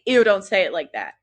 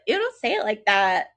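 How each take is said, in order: First: It sounds genuinely disgusted and dismissive. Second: It sounds teasing and playful, not truly disgusted. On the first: The speaker is not interested in him. "I wouldn't say" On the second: The speaker is interested in him. "It would be like, ... You would have a different tonality"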